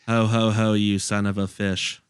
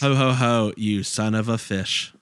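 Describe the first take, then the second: First: It is said flatly, without emotion. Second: It is said with emotion and inflection.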